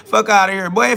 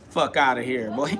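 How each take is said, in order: First: Said again, much louder and punchier; louder repeat. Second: Said in the usual way. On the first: Shown as a demonstration. Dismissing the people who call him a sinner, louder. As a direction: hit it harder the second time.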